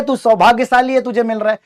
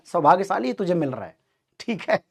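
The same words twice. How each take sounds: First: Teasing, chuckling father, a bit raised; father laughing at his son's love letter; laughing dad. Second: Quieter teasing repeat, fading off; dad repeating the joke more softly; laughing dad. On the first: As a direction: tease the crying kid while laughing. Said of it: "ये कहते हुए वो हंस रहे हैं". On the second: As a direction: let the tease trail away softly. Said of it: "वो हंस रहे हैं". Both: Retold or imitated.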